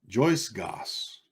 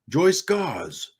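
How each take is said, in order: First: The name ends with a hissing s sound. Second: The name ends with a buzzing z sound. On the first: The speaker calls it right. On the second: The speaker calls it wrong.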